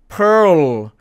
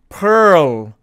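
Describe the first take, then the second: No difference in how they are said.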